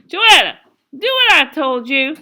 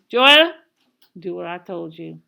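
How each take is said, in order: First: Much louder and higher, sharp command; angry mother's order. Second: Menacing mother's order. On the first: Mama to a balking Joetta, loud angry command. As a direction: raise your voice and demand obedience. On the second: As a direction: call sharply, then drop to a low threat. Mother repeats order, then drops low. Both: A narrator's reading.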